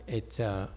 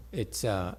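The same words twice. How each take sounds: The two takes are said the same way.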